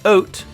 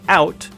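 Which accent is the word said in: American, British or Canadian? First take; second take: Canadian; American. First: The word is said in a Canadian accent. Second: The word is said in an American accent. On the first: "a Canadian would say" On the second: "An American would say"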